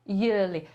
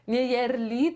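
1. Pierwsza samogłoska brzmi jak w ear. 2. Pierwsza samogłoska brzmi jak w yeah. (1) "tylko yearly" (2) "nie yearly"

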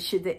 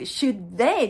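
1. 'should'という単語は、弱く軽く発音します。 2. 'should'という単語は、強くはっきり発音します。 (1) "弱く、軽く発音してます" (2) "should they ではなくて"

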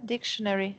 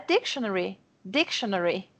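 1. A tônica cai numa sílaba posterior. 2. A tônica cai na primeira sílaba. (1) "não é dictionary" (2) "é dictionary, têm a sílaba tônica no início"

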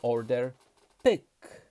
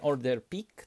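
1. Samogłoska w pick to nienapięte i. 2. Samogłoska w pick to napięte ee. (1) "tylko order pyk" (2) "nie order pik"

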